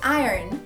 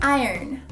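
Both takes have the same delivery.

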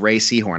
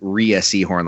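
First: The first name sounds like the word Ray. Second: The first name does not sound like Ray. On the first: This is the name's real pronunciation. The speaker calls it right. "it's like Caroline Ray" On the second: This is how the speaker had imagined the name. The speaker calls it wrong. "I always pronounced it Rhea Seahorn, like in my head"

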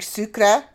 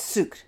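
First: The word ends with a vowel after the R. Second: The word stops on the R with no vowel. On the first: The speaker calls it wrong. "I was saying sucre" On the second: The speaker calls it right. "you stop at the R. There's no E"

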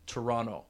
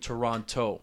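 First: It is said with a local Toronto accent. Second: It is said the standard outsider way.

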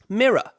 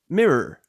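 First: The word has a British pronunciation. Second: The word has an American pronunciation. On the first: The speaker calls it right. "the first version is correct" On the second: The speaker calls it wrong. "the second version is American"

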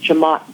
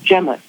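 First: The surname is said the family's preferred way. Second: The surname is said the Barbadian way. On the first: This is the version the family chose to use. "my mother liked Jamott better" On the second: This is how people from Barbados would say it. "if you were from Barbados, you would probably pronounce it Jemott"

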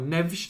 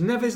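First: The name is said with a Portuguese pronunciation. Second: The name is said with an English pronunciation.

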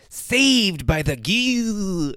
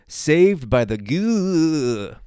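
First: It is said in a Crypt Keeper impression. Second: It is said in the speaker's normal voice.

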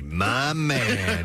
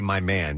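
First: It is said slowly, drawn out. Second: It is said quickly and plainly.

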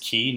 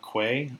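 First: The word sounds exactly like key. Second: The word begins with a kw sound. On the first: The speaker calls it right. "It is key" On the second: The speaker calls it wrong. "not quay. A lot of people seem to make that mistake"

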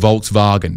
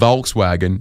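First: The 'w' is said as a V sound. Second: The 'w' is said as an English W. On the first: The speaker calls it right. "because in Germany they don't say were" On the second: The speaker calls it wrong. "instead of saying Volkswagen"

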